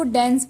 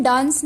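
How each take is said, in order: First: डेंस said with a short flat e as in dens; the right way, डेंस with a short e vowel; correct pronunciation. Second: डांस said with a long open a as in dahns; the incorrect डांस, long broad a; wrong pronunciation. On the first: Teacher gives the correct डेंस, short e. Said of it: "इसकी सही pronunciation डेंस है". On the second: Teacher shows the wrong way first, डांस with a long a. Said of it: "इसको हम डांस नहीं बोलेंगे". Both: Shown as a demonstration.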